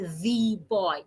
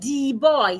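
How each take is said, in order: First: The first consonant is a voiced th, tongue between teeth. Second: The first consonant is a d sound, tongue behind teeth. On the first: The speaker calls it right. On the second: The speaker calls it wrong. "instead of saying"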